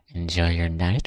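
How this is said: It is said in a creepy voice.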